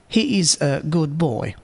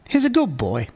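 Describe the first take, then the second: First: Slower, with the d of good fully pronounced. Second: Fast, with the d of good sounding like b. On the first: "Normal speaker. ... Here there is no assimilation or elision effect. Speed fifty percent" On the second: "Fast speaker. ... Assimilation effect. D of good is pronounced as b. eighty percent speed"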